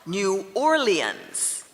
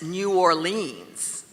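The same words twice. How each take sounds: First: The second word has three syllables. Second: The second word has two syllables. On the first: The speaker is from the city. The speaker calls it right. "Some people give three syllables to the second part" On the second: The speaker is not from the city. The speaker calls it wrong. "No native Orleanian ever says New Orleans"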